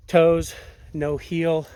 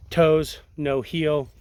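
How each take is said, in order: Both takes have the same delivery.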